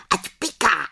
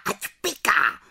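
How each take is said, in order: First: High, gleeful witch screech; cackling crowd of witches; witches shrieking. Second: High witch screech, stress on ať; shrill witchy jeer; witches shrieking. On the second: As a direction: screech the taunt again. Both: Acted. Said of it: "vřískaly".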